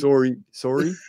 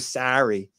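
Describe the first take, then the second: First: It is said with a Canadian vowel sound. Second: It is said with an American vowel sound. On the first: "I hear your Canadian accent" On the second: "As opposed to sorry"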